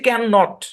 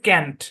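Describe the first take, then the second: First: It is said as two separate full words. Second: It is said as one short contracted word. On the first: "এটা হচ্ছে ক্যান নট" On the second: "এটা contraction হচ্ছে ক্যান্ট"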